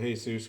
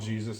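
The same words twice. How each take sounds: First: The name is said with a Spanish pronunciation. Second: The name is said with an English pronunciation. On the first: This is how friends with that name were called. "I always pronounce it Jesus because you know, all the friends I had growing up that were named Jesus" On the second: This is how the character is called on the show. "I saw him call him Jesus"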